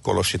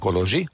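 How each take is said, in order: First: The middle consonant is a voiceless 'sh' sound. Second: The middle consonant is a voiced 'zh' sound. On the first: The speaker calls it wrong. "a Kolosi tér" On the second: The speaker calls it right. "helyesen Kolozsi"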